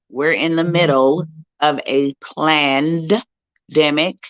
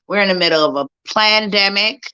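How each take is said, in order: First: It is said slowly, syllable by syllable. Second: It is said at normal speed.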